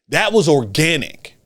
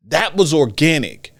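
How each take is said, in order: Both takes have the same delivery.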